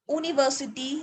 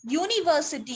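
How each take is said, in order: First: यूनिवर्सिटी as "ooniversity"; mispronounced without y. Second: यूनिवर्सिटी as "yooniversity"; correct y-sound pronunciation. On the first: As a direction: start यूनिवर्सिटी on a bare "oo". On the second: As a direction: open यूनिवर्सिटी with a y glide. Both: Shown as a demonstration. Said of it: "इसकी correct pronunciation ही".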